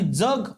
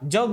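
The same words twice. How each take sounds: First: The first consonant is dental, like dz. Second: The first consonant is palatal, like English j. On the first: It means stay alive. "अयुक्त जर उच्चार केला" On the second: It means world. "य युक्त पूर्ण उच्चार"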